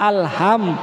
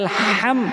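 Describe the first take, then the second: First: The h is an ordinary soft breath sound. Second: The h is a tight, throaty breath sound. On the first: All blame belongs to God. The speaker calls it wrong. "হাম স্বাভাবিকভাবে" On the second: All praise belongs to God. The speaker calls it right. "হার জায়গায়"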